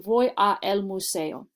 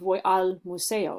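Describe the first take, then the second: First: The two vowel sounds are said separately. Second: The two vowel sounds run together into one.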